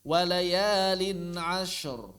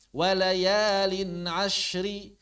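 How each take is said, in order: First: The last word ends on a bare consonant. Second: The last word ends with a short vowel.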